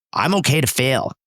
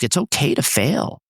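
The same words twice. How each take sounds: First: I'm punched, falling finish; stress on I'm. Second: Okay stressed, falling at the end. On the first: Shown as a demonstration. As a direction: hit I'm, not okay. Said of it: "Your definition of failure and my definition". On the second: Retold or imitated. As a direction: lean on okay, easygoing. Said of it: "investors that will sometimes say to me".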